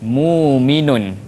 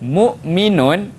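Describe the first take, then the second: First: No glottal stop; a long u is heard instead. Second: A glottal stop is heard before the m. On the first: "akan bertukar jadi muminun" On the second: "asal dia adalah hamzah sakinah"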